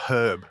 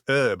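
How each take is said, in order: First: The word starts with a pronounced h. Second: The word starts with a silent h. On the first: The speaker calls it wrong. "not herb" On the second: The speaker calls it right. "it's a silent H"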